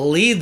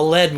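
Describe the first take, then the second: First: The vowel is long, rhyming with seed. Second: The vowel is short, rhyming with bed. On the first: It names the verb meaning to guide. The speaker calls it wrong. "It's not the Lead Zeppelin" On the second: It names the heavy metal. The speaker calls it right. "it's the lead one, you know? On fire and coming down hard"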